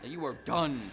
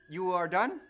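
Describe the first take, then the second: First: It is said as a threat. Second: It is said as a question.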